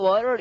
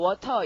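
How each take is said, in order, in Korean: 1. T는 약해서 거의 안 들려요. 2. T는 분명하게 발음해요. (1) "보통은 water 이럽니다" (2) "지방에 따라서는 뭐 water 이런 데도 있긴 있다"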